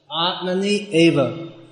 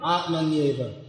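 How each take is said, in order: First: It is said as two separate words. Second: It is said as one joined word. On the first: "Now these are two words" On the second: "then they become one word, combined as one word"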